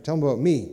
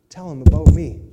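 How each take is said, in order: First: Accent moved to "me", falling on "me"; stress on me. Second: "about" punched very loud, accent on "about"; stress on about. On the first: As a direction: land the stress on "me" at the end. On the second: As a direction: hit the word "about" hard and loud. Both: Shown as a demonstration. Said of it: "The accent should have been after".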